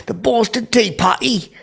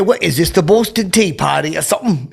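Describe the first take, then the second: First: Very high, drawn-out British parody; exaggerated mock British accent. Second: High-pitched, lightly mocking British voice; mock British accent. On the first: Showing the bit done for Ben Cumberbatch, hammed-up British accent. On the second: Razzing Ben Cumberbatch backstage, mock British accent. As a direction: tease in a put-on British accent. Teasing a British actor, put-on voice.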